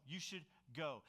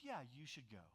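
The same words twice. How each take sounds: First: Sincere, even permission to go; genuine approval, retold. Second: Low, quiet, loaded mock permission; false approval, imitated. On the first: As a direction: give honest leave, without an edge. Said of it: "this is genuine approval". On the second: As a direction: imitate a wife quietly saying yes but meaning no. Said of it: "you're actually gonna be in trouble".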